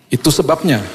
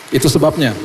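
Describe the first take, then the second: No difference in how they are said.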